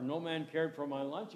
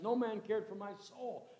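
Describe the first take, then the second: First: Said in the usual way. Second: "No man cared for my soul" lifted higher, weight on "no"; preacher lands "No man cared for my soul" as the real line; emphatic quote. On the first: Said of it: "He said, "No man cared for my soul". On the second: Shown as a demonstration. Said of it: "He said".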